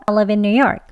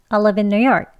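No difference in how they are said.

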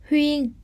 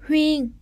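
Both takes have the same delivery.

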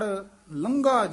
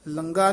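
First: The consonant is a breathy gh sound. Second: The consonant is a plain g sound. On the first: The speaker calls it right. "ਉੱਤੇ ਟਿੱਪੀ ਹੈ ਤੇ ਘੱਗਾ ਵੀ ਹੈ" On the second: The speaker calls it wrong. "ਲੰਗਾ ਨਹੀਂ ਕਹਿਣਾ"

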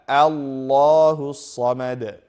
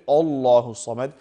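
First: The opening 'a' sound is light. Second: The opening 'a' sound is heavy. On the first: The speaker calls it right. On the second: The speaker calls it wrong.

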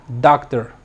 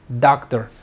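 No difference in how they are said.

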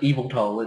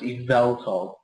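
First: The middle syllable is not given strong stress. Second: The middle syllable is given strong stress. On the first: The speaker calls it wrong. "So it's not just Yveltal" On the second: The speaker calls it right. "the point that's meant to be like pronounced the hardest is the vel"

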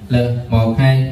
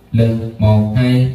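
First: The voice sounds dry with no added effects. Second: The voice sounds boomy with heavy bass. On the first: "mình thử mic khô" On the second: "mình thêm một tiếng bass nha"

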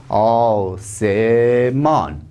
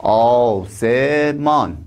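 The two takes are said the same way.

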